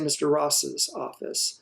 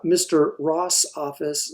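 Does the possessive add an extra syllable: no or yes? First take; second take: yes; no. First: The possessive adds an extra syllable. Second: The possessive adds no extra syllable.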